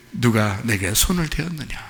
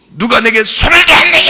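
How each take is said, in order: First: Lower, softer, tender question; gentle Jesus. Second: Loud, high, accusing shout; harsh demanding Jesus. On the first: Jesus gently seeking the woman, soft and tender. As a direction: ask kindly, already knowing the answer. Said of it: "그럼 몰라서 그래?". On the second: Wrong way to voice Jesus, loud harsh shout. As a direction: bark the question like an angry master. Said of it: "이런 말투인 것 같아요?". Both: Shown as a demonstration.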